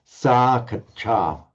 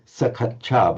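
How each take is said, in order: First: The vowel is held long. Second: The vowel is said short. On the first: The speaker calls it right. "but sakacha. Remember, if it wants to be long in Pali, it stays long" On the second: The speaker calls it wrong. "you did shorten that ah, so sakacha"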